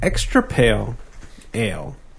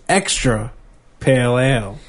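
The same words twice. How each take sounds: First: Extra pale is grouped together, then ale. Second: Extra stands apart, then pale ale together. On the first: The ale is extra light and bland. "which sounds boring" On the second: It is more of a pale ale. "Which is good"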